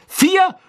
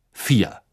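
First: Incredulous, very high shout of "Vier?"; furious high yell; angry roar. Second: Said in the usual way. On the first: A narrator's reading. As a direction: bellow it as an outraged question. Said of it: "brüllte Ron zornig".

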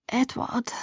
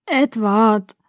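First: Weak, soft murmur of a name; faint first attempt. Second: Weak but clearer second attempt; slightly clearer voice. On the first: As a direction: barely get the name out, softly. (schwach und leise, kaum hörbar) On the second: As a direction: try the name more clearly and firmly. (etwas klarer und kräftiger) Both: A narrator's reading. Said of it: "meine Stimme wurde etwas klarer".

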